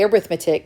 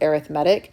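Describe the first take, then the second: First: It is said the way used for the noun. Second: It is said the way used for the adjective. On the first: "You can say arithmetic if you want" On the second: "when we use it as an adjective, we pronounce it arithmetic"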